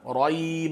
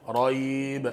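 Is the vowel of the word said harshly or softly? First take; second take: harshly; softly. First: The vowel is said harshly and abruptly. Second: The vowel is said softly and smoothly. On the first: The speaker calls it wrong. "Nggak boleh dibaca raib, nggak boleh" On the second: The speaker calls it right.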